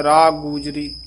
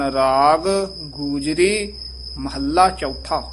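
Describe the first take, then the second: First: ਰਾਗ ਗੂਜਰੀ rushed, with the two g sounds merged; the wrong quick way, ਰਾ ਗੂਜਰੀ; hasty merged g. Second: Slow ਰਾਗ ਗੂਜਰੀ, each g clear; the correct way: ਰਾਗ, then ਗੂਜਰੀ, unhurried; both g sounds, slowly. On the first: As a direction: careless fast ਰਾਗ ਗੂਜਰੀ. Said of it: "ਛੇਤੀ ਬੋਲਦੇ ਹਾਂ ਤਾਂ ਇਉਂ ਬੋਲ ਜਾਂਦੇ". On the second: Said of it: "ਦੋਵੇਂ ਗੱਗੇ ਸ਼ੁੱਧ ਬੋਲਣੇ ਹਨ". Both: Shown as a demonstration.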